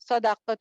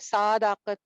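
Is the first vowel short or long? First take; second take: short; long. First: The first vowel is short. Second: The first vowel is drawn out long. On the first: The speaker calls it right. "सदाकत होता है" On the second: The speaker calls it wrong. "सादाकत नहीं होता"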